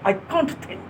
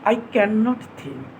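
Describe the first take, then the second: First: Cannot is shortened to one syllable. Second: Cannot is said as two full syllables.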